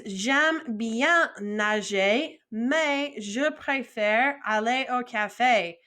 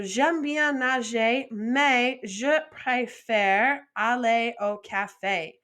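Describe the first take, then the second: First: Very slow, syllable by syllable French; slow model sentence. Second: Slow, even French reading; slow model sentence. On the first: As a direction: spell it out slowly for beginners. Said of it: "So the next one is". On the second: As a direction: read it back slowly and clearly. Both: Shown as a demonstration.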